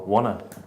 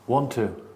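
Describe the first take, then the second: First: The words blend together with sounds dropped. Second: Both words are said fully and separately.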